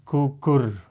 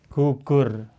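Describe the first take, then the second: No difference in how they are said.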